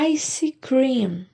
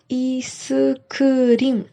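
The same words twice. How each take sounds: First: It is pronounced the English way. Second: It is pronounced the Korean way. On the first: "no inglês eles falam" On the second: "No coreano eles falam"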